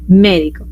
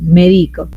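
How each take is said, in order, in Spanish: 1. La sílaba tónica es la primera. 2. La sílaba tónica es la segunda. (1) "a la antepenúltima... por esdrújula cambió" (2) "En la penúltima sílaba... hizo grave la palabra"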